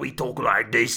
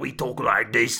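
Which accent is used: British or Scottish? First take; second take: Scottish; Scottish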